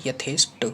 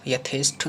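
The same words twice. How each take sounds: First: यथेष्ट ending in plain Ṭ; correct unaspirated ending. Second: यथेष्ट ending in breathed ṬH; wrong aspirated ending. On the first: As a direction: say यथेष्ट as "yathesht", no puff on the end. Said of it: "ना करके यथेष्ट". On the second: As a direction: say यथेष्ट as "yatheshth". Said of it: "ना करके". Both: Shown as a demonstration.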